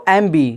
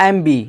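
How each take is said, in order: Both takes have the same delivery.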